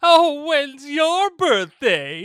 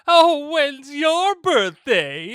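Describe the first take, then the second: First: It is said in a creepy Longlegs voice. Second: It is said in a creepy Longlegs voice.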